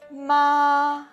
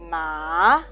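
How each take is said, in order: First: The pitch stays high and level. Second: The pitch rises from mid to high. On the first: It means mother. "ma means can means the mother" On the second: It means feel numb. "Ma can means feel numb"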